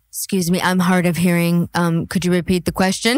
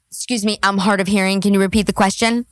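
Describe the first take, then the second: First: Lower, prim mimicking of the guest; lightly voiced mocking imitation; mock Southern belle. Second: Rushed, lower imitation of the guest; hurried mocking impression; quick mock excuse. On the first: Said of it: "this one is like". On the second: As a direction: rattle off the fake excuse. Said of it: "Whenever the Crucible says something".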